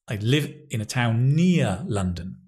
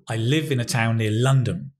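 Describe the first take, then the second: First: The strongest stress falls on the word near. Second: The strongest stress falls on the word town. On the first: The speaker does not live far away. "Near is the key information" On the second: This is a neutral statement of where the speaker lives. "Stress words provide the new and important information"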